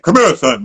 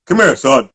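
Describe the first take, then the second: First: A lower, deeper coach voice. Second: Deep voice. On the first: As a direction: summon him gravely. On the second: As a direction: call him over like a stern old coach. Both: Retold or imitated. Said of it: "man, deep voice".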